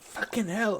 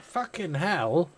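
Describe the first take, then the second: First: Much higher mock child voice; child's swear. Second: Put-on high, slow startled child exclamation; child's shocked swear. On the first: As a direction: imitate a toddler swearing casually. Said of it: "And she went". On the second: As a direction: mimic a little kid blurting a swear word. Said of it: "and she went".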